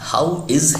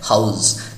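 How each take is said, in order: First: It is said as two separate words. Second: It is said as one contracted word. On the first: "हाउ इज है" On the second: "उसी को short में है हाउस"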